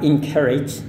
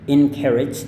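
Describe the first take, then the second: Both takes have the same delivery.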